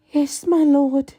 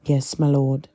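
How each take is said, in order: First: High, adoring deference. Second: Tight, clenched-jaw reply; through gritted teeth. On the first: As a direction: gush it devotedly. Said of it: "deferential and adoring". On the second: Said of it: "Draco gritted his teeth". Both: Acted.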